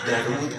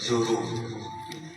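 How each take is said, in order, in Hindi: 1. पहला स्वर 'a' की आवाज़ है। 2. पहला स्वर 'u' की आवाज़ है। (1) "कुछ लोग दरूद कहते हैं" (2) "दाल पे पेश"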